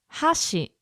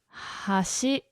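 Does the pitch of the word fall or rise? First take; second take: fall; rise. First: The pitch starts high and goes down. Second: The pitch starts low and goes up. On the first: It means chopsticks. "where it starts up and it goes down" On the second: It means bridge or edge. "hashi is bridge or the edge"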